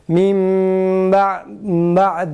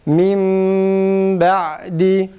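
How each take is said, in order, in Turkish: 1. B sesi m'ye karışarak bulanıklaşıyor. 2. B sesi m'den açıkça ayrılıyor.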